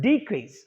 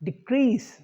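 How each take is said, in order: First: It is pronounced as the noun form. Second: It is pronounced as the verb form. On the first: It names a thing. "As a noun, first as a noun" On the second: It names an action. "as verbs"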